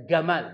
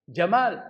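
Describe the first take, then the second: First: Egyptian hard g in "gamal"; logat Mesir. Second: Said in the usual way. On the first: Shown as a demonstration. (logat Mesir, jim jadi ga pada "gamal") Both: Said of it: "Kalau jim dibaca ga".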